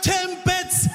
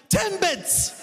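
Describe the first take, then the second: First: High, flat insistence on the word; impatient customer. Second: High, clipped repeat of a single word; impatient customer. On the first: Annoyed customer insisting on the word, high and impatient. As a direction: repeat it as if talking to a child. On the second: Annoyed customer repeating the word to the clueless cashier, high and impatient. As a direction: say it like it should be obvious. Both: Retold or imitated.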